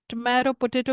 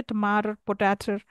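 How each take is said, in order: First: Said in the usual way. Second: "tomato, potato" ending in a loose "-er"; Cockney pronunciation. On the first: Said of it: "you, they'll say tomato". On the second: Shown as a demonstration. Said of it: "they'll say tomato".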